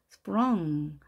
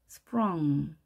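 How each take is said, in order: Both takes have the same delivery.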